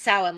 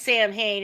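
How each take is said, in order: First: The name is said with an Irish pronunciation. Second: The name is said as two English words. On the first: This is how the Irish say it. "like the Irish pronounce it" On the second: This is how one movie says it. "in one movie it's pronounced Sam Hain"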